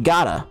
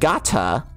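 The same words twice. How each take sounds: First: The T is soft and flapped. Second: The T is a crisp, hard stop. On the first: The speaker calls it wrong. "none of them actually said the harsh T" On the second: The speaker calls it right. "like it was supposed to be"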